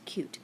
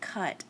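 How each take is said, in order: First: The vowel is long, rhyming with 'mute'. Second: The vowel is short, rhyming with 'but'. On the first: The speaker calls it right. "it's cute" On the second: The speaker calls it wrong. "that's not cut"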